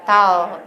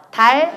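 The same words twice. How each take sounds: First: 다오 low, with a dark retracted L; English pronunciation. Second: 달 with a firm final L; Korean pronunciation. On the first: Teacher repeating the drill, English-style 다오. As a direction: pull the tongue back ending 다오. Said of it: "영어 한 번 해봐요". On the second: Teacher repeating the drill, Korean 달 with clear L. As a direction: hold the tongue tip forward on 달. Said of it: "한국어 한 번, 영어 한 번". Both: Shown as a demonstration.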